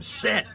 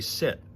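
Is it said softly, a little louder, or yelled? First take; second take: yelled; softly. First: It is yelled loudly. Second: It is said at normal volume.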